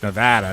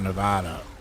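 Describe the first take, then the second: First: It is said the way local residents say it. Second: It is said the way outsiders say it. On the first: This is how people from the state say it. "when you're in Nevada, it's Nevada" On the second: This is how people from elsewhere say it. "not Nevada"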